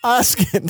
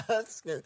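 First: Oscar said in Jamaican accent as "Oskih"; high Jamaican accent on Oscar. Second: Oscar in Jamaican accent, softer; quiet Jamaican accent take on Oscar. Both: Shown as a demonstration. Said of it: "That's how Jamaicans say it".

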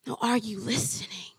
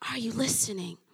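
First: Said in the usual way. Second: Breathy whispered question. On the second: Acted. God repeating the question to the believer, whispered. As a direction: lean in and whisper it.

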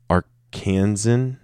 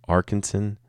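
First: Arkansan said ar-KAN-zun; weird-sounding Arkansan. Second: Arkansan said AR-kun-sun; alternative Arkansan pronunciation. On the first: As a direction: say Arkansan like "Kansan" with "ar" in front. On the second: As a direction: try Arkansan with stress on AR. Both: Shown as a demonstration. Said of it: "That sounds weird".

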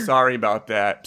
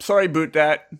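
First: Said in the usual way. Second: "about" said as "aboot", pitched up a little; joking "aboot" for "about"; mock Canadian "about". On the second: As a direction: playfully turn "about" into "a-boot". Repeats apology with exaggerated "about.

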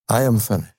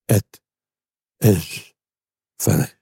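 First: "I am finished" with the stress on "am", falling; wrong reading. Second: "It is finished" with a pause after each word; slow solemn cry. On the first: Preacher showing the words Christ did not say, stress on "am". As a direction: lean on "am" like a defeated man. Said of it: "Christ didn't say". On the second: Preacher sounding Christ's cry from the cross, each word slow and apart. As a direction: let "It", "is" and "finished" each ring out alone. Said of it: "Listen to the cry". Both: Shown as a demonstration.

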